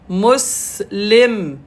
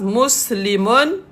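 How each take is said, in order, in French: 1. Le mot s'arrête sur une consonne finale nue. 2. Le mot se termine par la terminaison complète 'un'.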